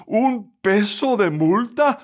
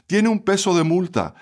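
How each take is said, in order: First: High, drawn-out outraged question; indignant widow throwing the charge back; angry disbelief. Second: Higher, matter-of-fact reading of a fine; lightly voiced cashier announcing a charge; curt cashier. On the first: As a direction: question it slowly, pitched high in anger. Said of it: "roja de ira, respondió". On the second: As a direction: read it off as an official statement. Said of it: "con voz breve leyó". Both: A narrator's reading.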